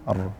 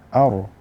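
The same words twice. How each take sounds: First: The opening vowel sounds light and thin. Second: The opening vowel sounds heavy and thick. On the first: The speaker calls it right. "Yang benar adalah a, ar" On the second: The speaker calls it wrong. "jangan sampai menjadikan hamzah itu tebal karena ra tebal"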